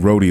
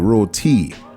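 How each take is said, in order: First: It is said in an Americanized way. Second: It is said the Trini way, with a crisp T.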